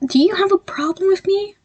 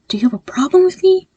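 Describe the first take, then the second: First: Demanding. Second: Higher and louder, pressing the question; angry demand. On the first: Demanding an answer. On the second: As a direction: push it harder, almost shouting. Demanding an answer again. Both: Acted.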